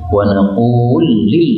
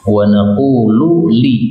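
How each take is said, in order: First: The two L sounds merge into one. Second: The two L sounds are kept separate. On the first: "boleh idgham menjadi" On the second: "ini juga lam ketemu lam"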